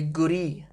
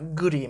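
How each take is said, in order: First: The last vowel is stressed a bit more. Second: The last vowel carries no extra stress. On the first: It is the genitive form. "you just stress the last vowel a little bit more" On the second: It simply means a house. "Guri means a house"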